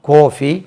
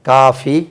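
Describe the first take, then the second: First: The first vowel sounds like a rounded 'oh'. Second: The first vowel sounds like an open 'ah'. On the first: This is how it is said in Kerala. "இது கேரளாவில்" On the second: This is how it is said in Tamil Nadu. "இதெல்லாம் தமிழ்நாட்டில் வந்து"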